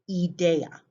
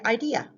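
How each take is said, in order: First: It is pronounced with Spanish vowel sounds. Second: It is pronounced with English vowel sounds. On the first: "In Spanish, idea" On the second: "In English, we say idea"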